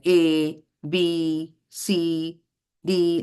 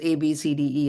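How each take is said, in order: First: There is a pause after each letter. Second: The letters run together without pauses. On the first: "would have a pause after each word" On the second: "just saying it as it is"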